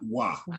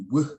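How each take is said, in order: First: The w has a full a vowel. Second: The w has only a very short vowel. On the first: The speaker calls it wrong. "not wa" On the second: The speaker calls it right. "It would be w"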